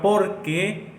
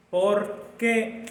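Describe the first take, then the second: First: "porque" as one word, stress on "por", "que" unstressed. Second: Two words, por then a clear stressed "qué". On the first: Teacher showing the class the answer form, porque said as one word. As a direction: run "porque" together, stress on the first syllable. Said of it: "va junto y no lleva acento". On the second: Teacher showing the class the question form, stress on qué. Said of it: "Y en la E lleva un acento". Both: Shown as a demonstration.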